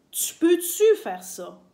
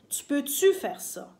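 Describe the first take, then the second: First: "tu peux-tu faire ça?" slow, higher and louder, stress on "peux-tu"; slow stressed example. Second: Said in the usual way. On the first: Shown as a demonstration. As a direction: drill "tu peux-tu faire ça?" slowly, punching "peux-tu". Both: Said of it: "on va souvent dire".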